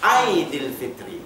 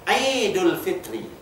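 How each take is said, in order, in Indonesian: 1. Kata pertama berakhir dengan "-dil" dengan vokal i. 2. Kata pertama berakhir dengan "-dul" dengan vokal u. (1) "bukan Aidil Fitri. Salah" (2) "Yang betulnya Aidul Fitri"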